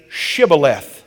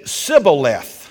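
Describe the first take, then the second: First: The word begins with a sh sound. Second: The word begins with a plain s sound. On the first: The speaker belongs to the group that may pass. The speaker calls it right. "they would say" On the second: The speaker belongs to the group trying to slip in. The speaker calls it wrong. "They couldn't pronounce the H"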